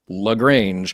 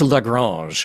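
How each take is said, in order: First: The name is said with a plain American pronunciation. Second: The name is said with a French-sounding pronunciation. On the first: This is how the Georgia town's name is said. "it has always been pronounced Lagrange" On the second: This is the fancy pronunciation used in the episode. "it sounds very French"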